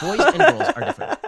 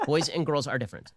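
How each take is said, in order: First: Much higher and louder, shouting it out; shouted declaration. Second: Said in the usual way. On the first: Real, not acted. Host declaring his core point to the audience at full force. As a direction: bellow the claim at full force.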